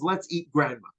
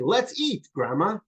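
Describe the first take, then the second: First: It runs on with no pause before grandma. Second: There is a pause before grandma.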